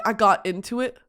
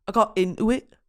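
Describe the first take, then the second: First: Said in the usual way. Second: "into it" with the T cut out; dropped T. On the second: Shown as a demonstration. Showing the singer's dialect, "into it" without its T. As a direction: swallow the T in "into it". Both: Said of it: "they cut the T out".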